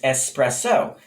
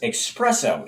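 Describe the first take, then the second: First: It starts with a plain 'es' sound. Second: It starts with an inserted 'ex' sound. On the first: The speaker calls it right. "the correct pronunciation is espresso" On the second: The speaker calls it wrong. "an X sound is inserted"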